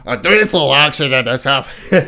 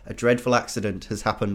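First: It is read in a put-on Scottish accent. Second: It is read in the speaker's usual accent.

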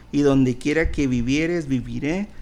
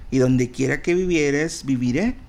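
No difference in how they are said.

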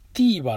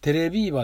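First: The name is pronounced as teebaa. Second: The name is pronounced as terebiibaa. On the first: The speaker calls it right. "正確にはね、ティーバーらしいんですよね" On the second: The speaker calls it wrong. "テレビーバーって言ったんですけどもね"

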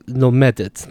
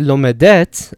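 First: The stress is on the middle syllable. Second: The stress is on the final syllable. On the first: The speaker calls it right. "I say lomedet. The stress is still there" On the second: The speaker calls it wrong. "I don't say lomedet"

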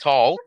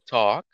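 First: The L sound is pronounced in the word. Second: The L sound is silent in the word. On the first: The speaker calls it wrong. "We don't say" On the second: The speaker calls it right. "We say talk"

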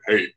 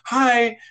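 First: The voice is lower and smoky. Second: The voice is high-pitched and squeaky.

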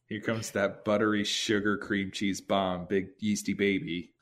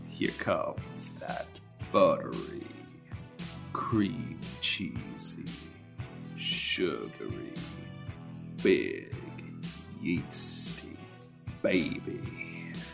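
First: It is said in a plain tone. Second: It is said in a seductive tone.

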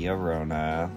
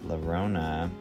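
First: The double L is said as a Y sound. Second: The double L is said as an L sound. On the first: The speaker calls it right. "it's actually Llorona, like with a Y" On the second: The speaker calls it wrong. "I was pronouncing the two L's in Llorona"

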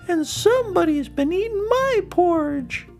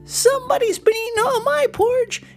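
First: It is said in a medium-pitched voice. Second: It is squeaked in a tiny, high voice.

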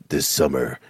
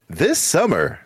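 First: It is said in a dramatic trailer voice. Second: It is said in a lighter rom-com trailer voice.

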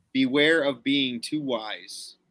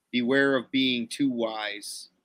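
The two takes are said the same way.

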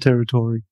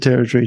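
First: The 'tory' syllable is drawn out and long. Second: The 'tory' syllable is short and clipped. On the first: The speaker sounds like an outsider. The speaker calls it wrong. "Americans elongate the Tory" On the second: The speaker sounds like a local. The speaker calls it right. "If you want to sound like a local, you got to call it the territory"

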